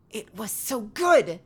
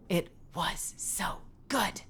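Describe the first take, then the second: First: Higher, slow drawn-out moan of so good. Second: Slow breathy whisper of so good; sultry whisper. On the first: Telling the chat about pasta, slow moan. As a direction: linger on it like a tasting moan. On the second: Telling the chat about pasta, sultry whisper. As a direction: whisper it like a sensual memory. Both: Pretend.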